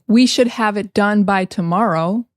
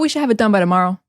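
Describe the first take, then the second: First: Each word is said fully and separately. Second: 'Should' shrinks to a 'sh' sound. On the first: "instead of saying" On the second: "I said"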